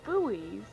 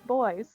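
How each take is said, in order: First: It is said with two syllables, like boo-ees. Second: It is said with one syllable, like boys. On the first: This is the American way of saying it. The speaker calls it wrong. "in American English we say buoys, but apparently, apparently that's incorrect" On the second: This is the British way of saying it. The speaker calls it right. "So apparently they are called boys"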